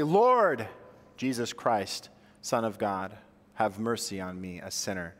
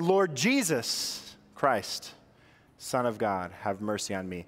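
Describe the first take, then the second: First: The stress is on the word Lord. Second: The stress is on the word Jesus.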